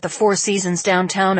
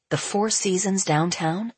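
First: "the Four Seasons downtown" run through as plain reporting; "the Four Seasons downtown" told as fact; statement. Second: "The Four Seasons downtown" rising into a question; incredulous echo. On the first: Brother reports, later echoed as question. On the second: Benji echoes it, shocked, in thought. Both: A narrator's reading.

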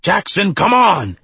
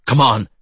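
First: High, loud urgent shout; yelling. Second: Quick, raised-pitch call to move; urgent urging. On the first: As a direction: yell after someone to hurry. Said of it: "the scarred one yelled". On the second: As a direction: hurry a partner along. Exterminator urging partner while running away. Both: A narrator's reading.

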